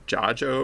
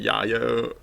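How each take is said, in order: First: The name is said with a J sound. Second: The name is said with a Y sound. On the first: "the J sound" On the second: "like the Y sound"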